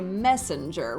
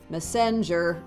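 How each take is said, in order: First: The stress falls on the usual syllable. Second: The stress falls on an unusual syllable. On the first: The speaker calls it right. "we say messenger" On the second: The speaker calls it wrong. "we don't say messenger"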